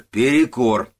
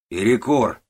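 First: Louder, higher repeated call; shout. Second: Loud, higher call of break; shout. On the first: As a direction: yell it again, harder. (ещё громче, настойчивый крик) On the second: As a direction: yell it across the yard. (громкий крик на весь склад) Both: Acted. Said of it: "кричит старый Куба".

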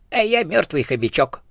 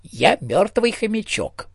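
First: Cheerful. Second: Slow, much higher hamster voice, kindly; friendly hamster. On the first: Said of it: "бодро сказала существо". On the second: Hamster ghost politely repeating to the elephant, high and friendly. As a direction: repeat it sweetly in the squeaky hamster voice. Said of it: "приветливо повторил мёртвый хомячок". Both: A narrator's reading.

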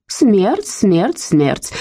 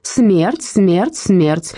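First: Clipped, each word chopped off, the first one higher; abrupt repetition like a snapping turtle; curtly. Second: Slow rising solemn repetition; mild solemn chant; solemnly. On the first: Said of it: "отрывисто повторяла она". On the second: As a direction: intone each word like a verdict. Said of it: "торжественно произнесла". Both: A narrator's reading.

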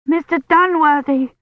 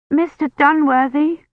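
First: Higher, louder desperate scream of the name. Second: Desperate call. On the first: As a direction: scream for him in feverish panic. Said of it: "she screamed". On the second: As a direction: call out for help from a fever dream. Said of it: "Kivrin called out desperately". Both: A narrator's reading.

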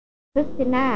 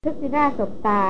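First: Drawn-out startled call of the name คริสติน่า, slow; exclaiming her name. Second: Said in the usual way. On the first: A narrator's reading. Hunter startled, calling Christina's full name, slow exclamation. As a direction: blurt out คริสติน่า slowly in disbelief. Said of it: "เขาอุทานเรียกชื่อเต็มของหล่อน".

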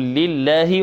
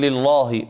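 First: لله with a thin, light lam; careful recitation; correct thin lam. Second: لله with a thickened lam; wrong heavy lam. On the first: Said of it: "نقول". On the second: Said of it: "لا نقول". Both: Shown as a demonstration.

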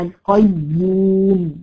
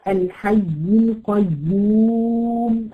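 First: القيوم slow and louder, the doubled ya held long. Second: القيوم slowly drawn out with the doubled ya held; slow demo recitation. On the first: Teacher showing students the length of the doubled ya. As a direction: draw out القيوم, weight on the ya. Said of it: "بص الزمن بتاعها". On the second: Teacher reciting الحي القيوم slowly for students. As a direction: stretch القيوم and lean on the doubled ya. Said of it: "فيها حرفين لأنها مشددة". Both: Shown as a demonstration.

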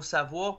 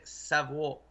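First: Said in the usual way. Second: Slow, stretched s'avoir; savoir split after the S. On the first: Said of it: "c'est important le mot savoir". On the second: Shown as a demonstration. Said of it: "un apostrophe entre le S puis le A".

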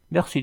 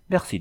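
First: Surprised merci. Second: A much higher, bashful merci; shy thanks, blushing. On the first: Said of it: "dit Alphonse surpris". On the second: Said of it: "dit-elle en rougissant". (Merci timide et aigu, en rougissant) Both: A narrator's reading.

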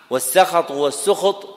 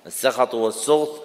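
First: والسخط said first as sakhat with open s, then as sukht with u; teacher demonstrates both vowelings of والسخط; two pronunciations. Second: السخط and والسخط given once as sukht with u, once as sakhat with open a; two pronunciations. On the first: Teacher showing students two valid pronunciations of السخط, clearly spoken. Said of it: "بفتح السين وضمها لغتان صحيحتان". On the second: Teacher repeats both vowelings of السخط for the class, carefully pronounced. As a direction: contrast the vowel after the s in السخط. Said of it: "بضم السين وفتحها لغتان صحيحتان".

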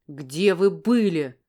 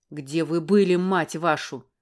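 First: Loud, slow, drawn-out roar with "вы" dragged out; man yelling at a woman who vanished; furious yell. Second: Loud, fast bark with "были" hit hardest; man barking at her again; angry bark. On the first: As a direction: roar it at her slowly, word by word. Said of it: "заорал он, как потерпевший". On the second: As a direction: snap the question out sharply. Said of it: "рявкнул он снова". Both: Acted.

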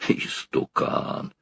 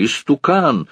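First: «Истукан!» whispered slowly; whispered insult. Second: «истукан!» thrown out high with a falling end; shouted insult. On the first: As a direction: breathe out «Истукан!» slowly under your breath. Повтор слова шёпотом. («Истукан!» медленным шёпотом) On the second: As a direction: hurl «истукан!» at him. Барыня кричит на старика. («истукан!» выкрикнуто высоко, с падением в конце) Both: A narrator's reading.

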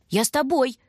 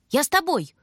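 First: High, louder insistent repeat; insisting. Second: High, louder eager plea; tagging along. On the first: Little brother insists on going: high, louder, pushy. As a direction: keep pressing to come. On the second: Little brother begs to go too: high, louder, eager. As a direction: beg to come along. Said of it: "увязался Бобка". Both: A narrator's reading.

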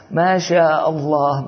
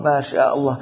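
First: Slow, drawn-out mock admiration; slow sarcastic wow; mocking praise. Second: Muttered mock admiration; mocking praise. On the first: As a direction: stretch it out, teasing him. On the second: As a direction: toss it off with a smirk. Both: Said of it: "يقرق عليه ويضحك عليه".

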